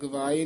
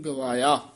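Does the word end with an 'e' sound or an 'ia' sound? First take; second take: e; ia. First: The word ends with a short 'e' sound. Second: The word ends with an 'ia' sound. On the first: The speaker calls it wrong. "ਗਵਾਏ ਨਹੀਂ" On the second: The speaker calls it right. "ਗਵਾਏ ਨਹੀਂ ਗਵਾਇਆ"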